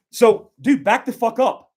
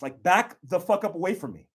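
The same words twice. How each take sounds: First: Sharp, high, loud command to back off; loud warning. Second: Said in the usual way. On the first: Shown as a demonstration. Instructor demonstrating a shout at a robber, loud warning. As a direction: bark the order so he steps away. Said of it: "prepared for war". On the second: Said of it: "Like, relax".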